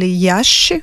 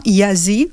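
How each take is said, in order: First: Iași said the Romanian way, ending in a sh sound; Romanian pronunciation. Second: Iași said the French way, i-a-zi with a z; French pronunciation. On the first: Guest tells the host her hometown's Romanian name, Iași said with a final sh. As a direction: say Iași as a native Romanian would, ya-sh. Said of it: "en roumain". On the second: Guest gives the French version of her hometown's name, Iași as ee-ah-zee. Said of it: "on dit des fois en français". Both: Shown as a demonstration.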